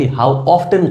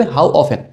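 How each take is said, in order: First: "often" with the T sounded, OF-ten; mispronounced often. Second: "often" said OF-en, T left silent. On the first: Teacher showing students' mistake, "often" with a sounded T. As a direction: pronounce the silent T in "often". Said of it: "অনেক ছাত্ররা করে কি ... উচ্চারণ করে ... সম্পূর্ণ ভুল". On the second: Teacher modelling for students, "often" with silent T. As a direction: drop the T in "often". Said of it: "How often উচ্চারণটা কি হবে?". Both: Shown as a demonstration.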